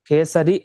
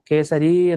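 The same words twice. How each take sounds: First: The final vowel is short. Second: The final vowel is long. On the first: The speaker calls it wrong. "ಕೇಸರಿ ಅಲ್ಲ" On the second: The speaker calls it right. "ಕೇಸರಿ ಅಂತ ದೀರ್ಘ ಹೇಳ್ಬೇಕು"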